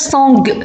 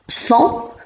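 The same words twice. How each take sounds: First: A final G sound is pronounced. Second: The final G is silent. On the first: The speaker calls it wrong. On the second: The speaker calls it right.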